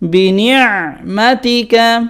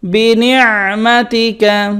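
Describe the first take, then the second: First: The throat sound after ni is pressed. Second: The same.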